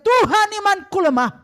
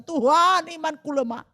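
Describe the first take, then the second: First: Higher, louder desperate plea; loud pleading cry. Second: Said in the usual way. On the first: Shown as a demonstration. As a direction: cry it out to God. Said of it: "Justru engkau berteriak". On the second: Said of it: "ketika kata".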